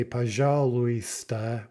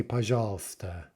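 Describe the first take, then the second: First: Пожалуйста with every syllable sounded; slow пожалуйста with a full "lu-ee" in the middle; spelled-out pronunciation. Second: Пожалуйста shortened to pa-zhal-sta; everyday пожалуйста, no "ui" sound; contracted pronunciation. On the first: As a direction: say пожалуйста letter by letter, pa-zha-lu-ee-sta. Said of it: "we don't say пожалуйста". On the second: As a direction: say пожалуйста with the middle syllable dropped. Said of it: "we say пожалуйста". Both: Shown as a demonstration.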